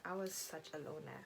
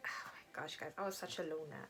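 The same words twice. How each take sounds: First: Said in the usual way. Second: Embarrassed whisper to the viewers; soft, breathless admission; whispered confession. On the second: Real, not acted. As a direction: whisper it like a guilty secret.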